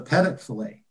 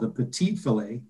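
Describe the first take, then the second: First: The first word is said like the name 'Pettit'. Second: The first word is said as 'petite'. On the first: The dish is named after the host by mistake. The speaker calls it wrong. "he said, I'll have the Pettit filet" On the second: The dish is named correctly. The speaker calls it right. "that's what it's called"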